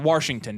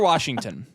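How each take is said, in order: First: The first syllable sounds like 'warsh', with an r. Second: The first syllable is plain 'wash', with no r.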